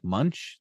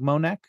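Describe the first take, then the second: First: The surname sounds like 'Munch'. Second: The surname sounds like 'Monek'. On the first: The speaker calls it right. "it's pronounced more like Munch" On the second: The speaker calls it wrong. "I pronounced it as Doug Monek"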